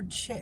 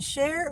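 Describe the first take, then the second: First: The name begins with a hard 'ch' sound. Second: The name begins with a soft 'sh' sound. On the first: "I know I'm not saying it right" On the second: "Is it share or chair?"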